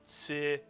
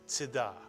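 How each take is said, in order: First: The first vowel is held long. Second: The first vowel is very short. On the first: The speaker calls it wrong. "not a quarter note" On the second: The speaker calls it right. "like a grace note"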